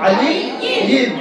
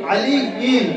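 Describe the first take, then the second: The two takes are said the same way.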